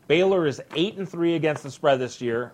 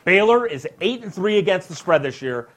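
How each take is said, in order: First: It is said flatly, without much energy. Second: It is said with lively, fired-up energy.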